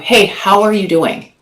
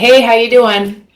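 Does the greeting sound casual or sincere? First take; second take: sincere; casual. First: It sounds earnest, as if truly wanting an answer. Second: It sounds like a quick, casual passing greeting.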